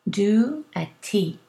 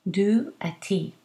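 The two takes are said the same way.

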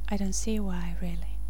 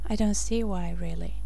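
Both takes have the same delivery.

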